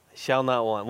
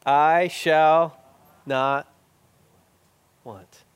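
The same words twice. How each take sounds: First: Said in the usual way. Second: Slow, pausing recitation. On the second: Shown as a demonstration. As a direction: space the words out one by one. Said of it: "I'll say it slowly".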